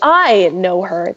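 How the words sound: The stress is on the word 'I'. It is me, not someone else, who knows her. "The emphasis is on the I"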